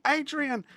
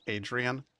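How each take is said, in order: First: High, screamed name; mock scream. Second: Said in the usual way. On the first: Streamer correcting the film's scream, in a high mock shriek. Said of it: "No, she doesn't say".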